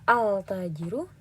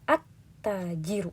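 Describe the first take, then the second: First: The L is heard clearly before the T. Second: The L is dropped and the T is doubled. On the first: The speaker calls it wrong. "Kita tidak membaca al-tajiru" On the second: The speaker calls it right. "tapi at-tajiru"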